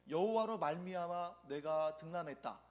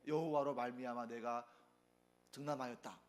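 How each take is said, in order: First: It is said in a glad, joyful tone. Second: It is said in a stern, annoyed tone. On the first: God blessed me with a son. "이렇게 기쁜 마음으로 말하면" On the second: God is blamed for what happened. "조금 화난 상태로 ... 조금 엄격하게 조금 기분 좋지 않게 말하면"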